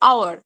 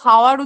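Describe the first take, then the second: First: The word begins with a vowel sound. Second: The word begins with an h sound. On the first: The speaker calls it right. "আমরা কি উচ্চারণ করি" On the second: The speaker calls it wrong. "এটাকে তো হাওয়ার উচ্চারণ করি না"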